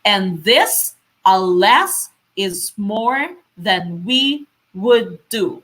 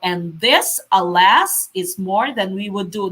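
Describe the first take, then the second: First: Slow "and THIS, aLAS, is MORE than WE would DO", a pause after each foot; iambic stress. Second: Said in the usual way. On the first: Shown as a demonstration. Teacher showing how to read pentameter, slow beat on every second syllable. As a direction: stretch and lift "this", "las", "more", "we", "do", keeping the other syllables light. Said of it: "So when you're reading this".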